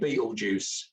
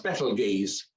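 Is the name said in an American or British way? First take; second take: American; British. First: It is said the American way, like Beetlejuice. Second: It is said the speaker's own British way.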